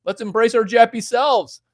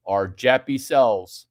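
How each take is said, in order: First: Hammed-up louder and higher; louder, higher repeat. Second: Said in the usual way. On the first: Shown as a demonstration. Streamer to chat, repeating his joke louder and higher. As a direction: belt it out as a joke.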